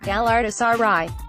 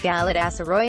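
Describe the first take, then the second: First: It is pronounced in the Turkish way. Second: It is pronounced in an anglicised way. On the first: The speaker calls it right. "the correct pronunciation" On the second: The speaker calls it wrong. "The response often came as"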